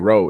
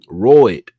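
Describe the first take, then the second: First: The word is said in a standard accent. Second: The word is said in a local Southern accent. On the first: This is not how older locals say it. "We don't they don't say road" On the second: This is how older locals say it. "That's how them old folks say it over here. ... they say road"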